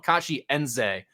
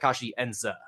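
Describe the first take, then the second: First: The surname ends with a 'zay' sound. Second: The surname ends with a 'zuh' sound. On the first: The speaker calls it wrong. "like Z A Y" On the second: The speaker calls it right. "he pronounced it more like Kachi Enza"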